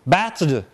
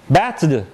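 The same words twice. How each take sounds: First: The word ends in a voiced d sound. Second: The same.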